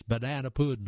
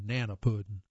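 First: Said in the usual way. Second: "nana pudding" with the first syllable of banana dropped; Southern pronunciation. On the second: Shown as a demonstration. Reader gives the South's name for banana pudding, "nana pudding" without the "ba". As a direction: say "nana pudding", starting straight on NAN. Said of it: "for us in the South".

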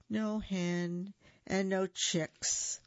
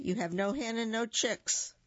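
First: Slow, sighing repeat; a slow sad echo of the taunt; sighed. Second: Said in the usual way. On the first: Acted. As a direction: let the words sink with a sigh. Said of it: "the Gallito sighed".

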